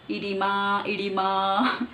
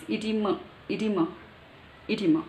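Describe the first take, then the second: First: EDEMA as "ee-dee-MAA", long rising last A; old mispronunciation. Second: EDEMA as "ee-DEE-muh", falling on a short uh; British pronunciation. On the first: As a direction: say EDEMA wrongly, dragging out the "maa". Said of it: "I used to pronounce it as". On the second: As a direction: say EDEMA with a short, weak ending. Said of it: "British, according to British". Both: Shown as a demonstration.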